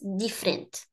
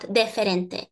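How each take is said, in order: First: The middle vowel is swallowed and dropped. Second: The middle vowel is fully pronounced. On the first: The speaker calls it right. "This U that we swallow, that we eat" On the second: The speaker calls it wrong. "we are not going to say diferente. That is not European Portuguese"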